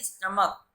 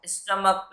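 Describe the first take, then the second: First: स्टमक said "stuh-muck" with a short neutral first vowel; correct pronunciation. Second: Put-on स्टमक said as "stomak", the wrong way a child says it; wrong pronunciation. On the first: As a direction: say स्टमक the right way, as in "stuh-mck". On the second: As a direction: say स्टमक the mistaken way, open o. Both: Shown as a demonstration. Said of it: "स्टमक नहीं बोलेंगे".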